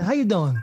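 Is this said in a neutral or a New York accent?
neutral. It is said in a neutral accent.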